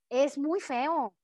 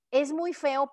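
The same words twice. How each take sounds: First: Feo stretched very slowly, muy leaned on; drawn-out muy feo. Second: Said in the usual way. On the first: Shown as a demonstration. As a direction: let es muy feo crawl out in disgust. (es muy feo dicho muy lento y arrastrado)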